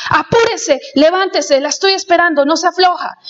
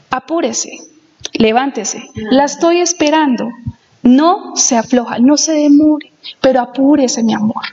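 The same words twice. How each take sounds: First: Higher, curt commanding read; pushy harsh reading of the letter; bossy orders. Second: Gentle, loving read of the letter; affectionate husband reading his own letter; tender reading. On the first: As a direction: bark the orders like a demand. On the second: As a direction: coax her sweetly, ending on mi amor. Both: Retold or imitated. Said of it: "la tonalidad con que las digo es diferente".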